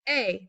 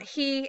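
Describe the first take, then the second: First: The word starts with a bare vowel, no H. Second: The word starts with an audible H sound. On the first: The speaker calls it right. "Remember the H, H is silent" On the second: The speaker calls it wrong. "not he"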